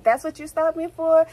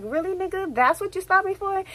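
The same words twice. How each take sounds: First: Incredulous question. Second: Much higher, pitched-up disbelief. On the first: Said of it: "I was like". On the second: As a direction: ask it like you can't believe the nerve. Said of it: "I'm like". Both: Retold or imitated.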